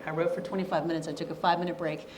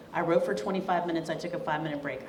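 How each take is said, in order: First: Fast, clipped-through repetition of the routine; rattling off the routine. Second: Said in the usual way. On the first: Shown as a demonstration. Speaker repeating her writing routine to students, fast. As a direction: rush through it like a ticking timer. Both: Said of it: "I did what's called the Pomodoro method".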